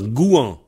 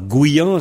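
First: No y-glide comes before the final vowel. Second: A y-glide comes before the final vowel. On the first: This is the pronunciation used everywhere else. "Partout ailleurs, on dit Gouan" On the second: This is the regional Vannes-area pronunciation. "il y a un I entre goût et an. Et ça donne Guyan. ... Guyan, c'est Est-Vanté"

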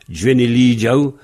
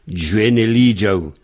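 No difference in how they are said.

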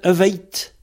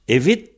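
First: The last vowel is an ei diphthong. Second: The last vowel is a plain i sound. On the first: "le I, il devient ei comme ti en tei" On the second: "Mais ça s'écrit evit"

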